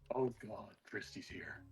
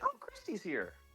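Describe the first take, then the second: First: It sounds full of dread. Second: It sounds pleased and cheerful.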